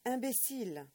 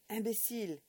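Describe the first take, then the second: First: Louder, higher, cutting French insult; harsher repeat. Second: Loud, cutting French insult; angry pronouncement. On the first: Old man shaking the boy, repeating imbécile harder. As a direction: drive it home harder. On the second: Old man shaking the boy, calling him imbécile angrily. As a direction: spit the word out as you shake him. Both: Acted. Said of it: "he pronounced between shakes".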